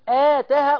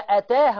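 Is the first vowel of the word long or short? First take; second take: long; short. First: The first vowel is drawn out long. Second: The first vowel is kept short. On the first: The speaker calls it wrong. "هنا الهمزة لوحدها وبعدين الألف عشان تقول آتاها" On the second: The speaker calls it right. "لا ما تتمدش"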